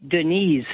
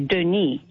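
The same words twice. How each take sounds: First: "Denise" said deh-NEEZ, with a z at the end; "Denise" with a voiced z ending; French pronunciation. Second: "Denis" said the French way, deh-NEE, silent s; "Denis" in French, stress on the last syllable, no s; French pronunciation. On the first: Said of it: "in the female side". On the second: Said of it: "D E N I S is a French male name". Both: Shown as a demonstration.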